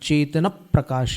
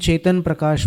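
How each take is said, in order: First: The name is said with a marked stress. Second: The name is said evenly, without marked stress. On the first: This is how it is said in Sanskrit verse. "Sanskrit में अगर छंद में लिखा जाएगा तो चेतन प्रकाश ये उच्चारण हो जाएगा स्वराघात के साथ" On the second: This is how it is said in Hindi. "जैसे हिंदी में अपन चेतन प्रकाश बोलते हैं"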